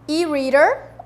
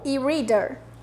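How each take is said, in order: First: It is said in an American accent. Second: It is said in a British accent.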